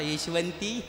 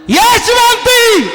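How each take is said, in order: First: The name is called softly and gently. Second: The name is called loudly and fiercely. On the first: The call is too weak to command anyone. The speaker calls it wrong. "आताचा तानाजी म्हणला असता" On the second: The call is powerful enough to command obedience. The speaker calls it right. "भयानक काढला होता"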